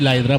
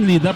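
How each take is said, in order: First: The first word has an 'eye' vowel, like 'lie'. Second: The first word has an 'ee' vowel, like 'lead'. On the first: The speaker calls it wrong. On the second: The speaker calls it right. "Tama ba yung pronunciation?"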